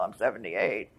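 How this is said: The age is said in a resigned, apologetic tone. The age is offered as an excuse. The speaker calls it wrong. "not like, well"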